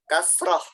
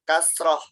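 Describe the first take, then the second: Both takes have the same delivery.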